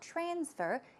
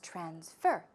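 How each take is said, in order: First: The stress is on the first syllable. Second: The stress is on the second syllable. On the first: The speaker calls it wrong. "It's not transfer" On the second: The speaker calls it right. "the stress goes right there on the second syllable"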